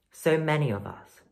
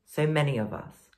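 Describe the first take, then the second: No difference in how they are said.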